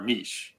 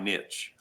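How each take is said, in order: First: The word is said the fancy, posh way. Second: The word is said the plain, everyday way.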